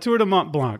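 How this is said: The name is said with English pronunciation. "I'm going to give it the English pronunciation"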